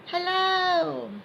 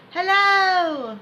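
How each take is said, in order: First: High but gentler hello; a lighter high hello; softer imagined voice. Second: High, loud demo hello; high imagined voice. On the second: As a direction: say hello in a pitched-up inner voice. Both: Shown as a demonstration. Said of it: "hear yourself say hello out loud".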